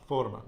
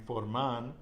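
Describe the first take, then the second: First: "forman" stressed on "for"; penultimate-syllable stress. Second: "forman" wrongly stressed on the last syllable "man"; wrong final stress. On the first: Teacher showing the nose rule, penultimate stress on "forman". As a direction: punch "for" in "forman", let "man" fall. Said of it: "stress goes on the penultimate syllable". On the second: Teacher showing what not to say, final stress on "forman". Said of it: "we're not saying forman". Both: Shown as a demonstration.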